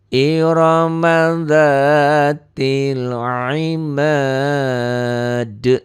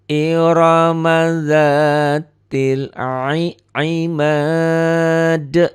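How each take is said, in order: The two takes are said the same way.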